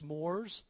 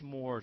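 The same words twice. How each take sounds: First: The word begins with a plain s sound. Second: The word begins with an sh sound. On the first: "I never say that right" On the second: "I like the sh in there"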